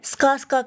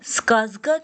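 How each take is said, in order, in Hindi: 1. बीच का व्यंजन एक अघोषित 's' ध्वनि है। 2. बीच का व्यंजन एक घोषित 'z' ध्वनि है। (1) "स्कास्का कहेंगे" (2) "स्कास्का कहने के बजाय"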